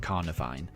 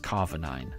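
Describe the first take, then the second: First: The name starts with the sounds "carni". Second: The name starts with the sounds "carva". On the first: The speaker calls it right. "I'm pretty sure that's how you meant to say it" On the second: The speaker calls it wrong. "I read it as Carvanine ... it's wrong"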